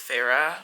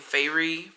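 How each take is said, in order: First: The name sounds like the name Farah. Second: The name sounds like the word fairy. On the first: "I'm guessing it's Farah" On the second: "so I was saying Fairy"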